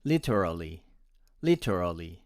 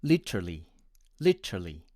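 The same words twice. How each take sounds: First: "literally" with every vowel kept, lit-er-al-ly; American pronunciation. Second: "literally" with the E and A vowels dropped, lit-rly; Indian pronunciation. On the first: Teacher demonstrating the American way, "literally" with all vowels. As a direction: say "literally" in full four syllables, no vowels omitted. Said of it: "my American friends would pronounce it as".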